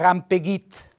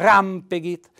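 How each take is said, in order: First: The stress is on the last syllable. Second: The stress is on the first syllable. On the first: The speaker calls it wrong. "Se lo mettessi sulla I diventerebbe, come fosse una parola tronca" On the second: The speaker calls it right. "è fondamentale mettere l'accento tonico sulla A"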